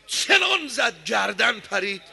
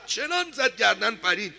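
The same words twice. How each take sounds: First: چنان drawn out and shouted, slow and loud; loud, slow, dramatic telling of the blow. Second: Said in the usual way. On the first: Shown as a demonstration. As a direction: shout چنان slowly, each word hammered.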